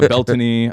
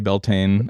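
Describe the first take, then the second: First: The name is said the Celtic way. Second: The name is said the common English way. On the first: "the proper Celtic pronunciation is"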